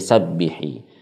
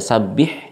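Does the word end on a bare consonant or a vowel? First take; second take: vowel; consonant. First: The word ends with an added i vowel. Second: The word ends on a bare consonant. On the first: "diganti dengan uh, kasrah" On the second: "Tadinya sabbih"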